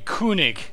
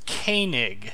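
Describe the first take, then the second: First: The first vowel is a rounded ü sound. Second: The first vowel is an English-style vowel. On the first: This is the German form. "the O umlaut is actually pronounced U" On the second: This is the anglicized form. "an anglicized translation of the pronunciation"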